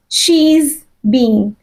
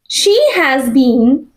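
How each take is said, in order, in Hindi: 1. शब्द 'has' 'she' के साथ जुड़कर छोटा हो जाता है। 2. शब्द 'has' पूरा बोला गया है।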